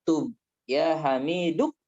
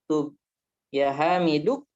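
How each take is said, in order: The two takes are said the same way.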